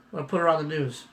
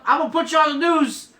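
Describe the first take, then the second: First: Said in the usual way. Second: Higher and louder, playful threat to wife; teasing threat. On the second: Real, not acted. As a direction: tease her loudly, grinning. Teasing his wife on camera.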